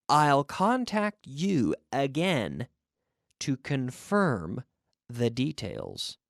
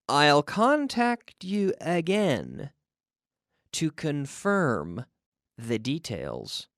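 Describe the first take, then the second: The two takes are said the same way.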